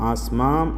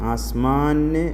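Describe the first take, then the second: First: The word ends with a full m sound. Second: The word ends with a full n sound. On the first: "ആസ്മാന് എന്നോ ആസ്മാം എന്നോ അല്ല" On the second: "ആസ്മാന് എന്നോ ആസ്മാം എന്നോ അല്ല"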